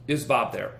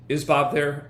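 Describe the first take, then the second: First: Flat, confident ask, falling end; confident question. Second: Bob stressed, louder, confident; confident question. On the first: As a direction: ask it like you belong. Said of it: "deliver it like that". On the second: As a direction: lean on Bob with certainty. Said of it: "get that first name". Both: Shown as a demonstration.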